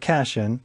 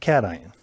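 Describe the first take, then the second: First: It is read the way it is spelled. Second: It is said with three syllables. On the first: The speaker calls it wrong. "looks like cation" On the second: The speaker calls it right. "we pronounce it cation"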